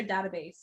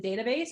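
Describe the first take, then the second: First: "database" said as DAT-uh-base; short-A database. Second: "database" said as DAY-tuh-base; long-A database. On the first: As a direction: start "database" like "cat". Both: Shown as a demonstration. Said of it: "Is it database or database".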